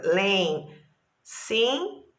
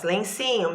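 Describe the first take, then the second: First: "Lencinho" very slowly as len, cin, nho; syllable by syllable. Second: Said in the usual way. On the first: Shown as a demonstration. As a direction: separate each beat of "Lencinho" with a pause. ("Lencinho" bem devagar, separando as sílabas) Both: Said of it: "mesma coisa".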